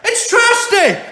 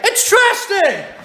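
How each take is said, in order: First: Laughing disbelief. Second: Slow exasperated shout. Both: Real, not acted.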